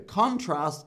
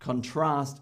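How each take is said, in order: First: The stress is on the first syllable. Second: The stress is on the second syllable. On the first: It is a noun. "contrast is probably the noun" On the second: It is a verb. "contrast is probably the verb"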